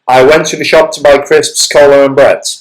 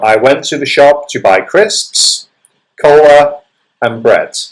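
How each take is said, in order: First: The list runs together without pauses between items. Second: There is a short pause after each list item. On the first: The speaker calls it wrong. "You cannot just say it in one big go" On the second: The speaker calls it right. "You would pause between each item in the series"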